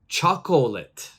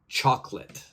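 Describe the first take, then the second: First: The second O is pronounced, giving three syllables. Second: The second O is silent, giving two syllables. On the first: The speaker calls it wrong. "a lot of people like to pronounce it. So they will say chocolate" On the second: The speaker calls it right. "So my pronunciation would be chocolate"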